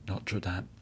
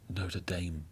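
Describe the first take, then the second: First: It is said in a French-style pronunciation. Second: It is said in an American pronunciation.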